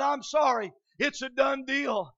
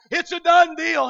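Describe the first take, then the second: First: Said in the usual way. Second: Preached proclamation. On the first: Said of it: "And Gordy said this to me". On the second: Acted. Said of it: "I cried on Calvary's hill".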